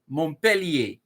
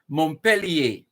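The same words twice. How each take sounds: First: The name is said with French pronunciation. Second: The same.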